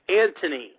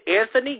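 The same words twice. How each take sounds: First: The middle consonant is a plain 't' sound. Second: The middle consonant is a 'th' sound. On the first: The speaker calls it right. "It's Anthony. Silent H" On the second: The speaker calls it wrong. "Did you say Anthony? Get it right"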